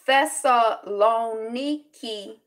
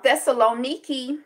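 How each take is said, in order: First: The word is said slowly and carefully. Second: The word is said at a normal pace. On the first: "Let's let's slow it down" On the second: "I might be mispronouncing it"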